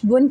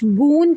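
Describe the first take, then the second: First: The vowel is kept short. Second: The vowel is drawn out long. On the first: The speaker calls it right. "बल्कि बा दो पेश बुन करके ही पढ़ा जाए" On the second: The speaker calls it wrong. "इसको बा दो पेश बून करके ना पढ़ा जाए"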